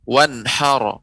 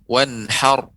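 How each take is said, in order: First: The final r is followed by an added vowel. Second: The word ends on a held, lightly trilled r. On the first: The speaker calls it wrong. "kalau saya membacakan dengan ro" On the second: The speaker calls it right. "Seperti tertahan dia"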